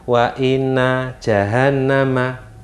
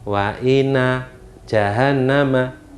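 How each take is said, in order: The two takes are said the same way.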